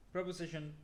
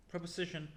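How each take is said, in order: Both takes have the same delivery.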